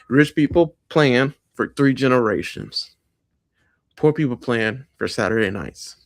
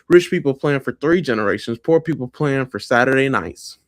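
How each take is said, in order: First: It is said slowly. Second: It is said at a normal pace.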